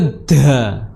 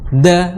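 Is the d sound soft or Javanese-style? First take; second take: Javanese-style; soft. First: The d is said in a Javanese way. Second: The d is soft and light. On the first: The speaker calls it wrong. "Bukan juga da. Kalau da itu Jawa" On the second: The speaker calls it right. "Kalau dal itu sedikit lembut, ya. Da, da seperti itu"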